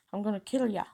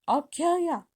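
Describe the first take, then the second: First: Said in the usual way. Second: High, loud threat; furious shout. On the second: Acted. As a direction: yell it as you grab them. Filch grabs and threatens.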